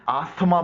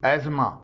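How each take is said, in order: First: A t sound is heard in the middle. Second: No t sound is heard in the middle. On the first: The speaker calls it wrong. "इसे आमतौर पर हम लोग आस्थमा बोलते हैं, जो कि गलत है" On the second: The speaker calls it right. "इसकी सही प्रोनाउंसिएशन है एजमा"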